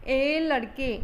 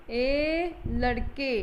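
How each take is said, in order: First: Said in the usual way. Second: ए लड़के with ए stretched long, very slow; pluta call from afar. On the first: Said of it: "अगर हम बोले ए लड़के". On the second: Shown as a demonstration. Hindi teacher demonstrating a pluta vowel, ए stretched very slowly. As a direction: hold the ए as if calling a boy far off. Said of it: "ऐसे बोलते हैं, मगर इसको ज़ोर से आवाज़ लगाते हैं".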